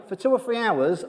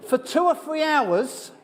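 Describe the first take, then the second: First: Said in the usual way. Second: High, slow, laughing through the words; "for two or three hours" stretched high on a laugh. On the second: Real, not acted. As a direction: giggle it out, amused at himself. Laughing at his own Cockney cramming.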